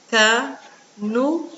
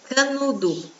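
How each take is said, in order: First: "Canudo" as ca... nu... do, slowly with pauses; syllable by syllable. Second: Said in the usual way. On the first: Shown as a demonstration. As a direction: split "Canudo" into three slow beats. ("Canudo" devagar, separado: ca, nu, do) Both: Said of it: "Vamos separar?".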